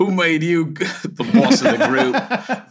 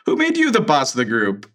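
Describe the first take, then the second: First: Hammed-up, higher-pitched Cockney accent breaking into laughter. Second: Said in the usual way. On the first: Shown as a demonstration. Host obliges co-host's request, joke Cockney accent. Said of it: "do a Cockney accent anyway". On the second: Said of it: "no, this is from Xander".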